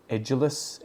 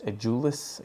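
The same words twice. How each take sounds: First: "Edulis" with the stress up front on ED; stress on first syllable. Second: "edulis" with the stress on DU; stress on second syllable. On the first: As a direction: try "Edulis" as ED-juh-lus, questioning. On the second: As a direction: try "edulis" as uh-JOO-lus, questioning. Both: Shown as a demonstration. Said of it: "don't know where the stress is".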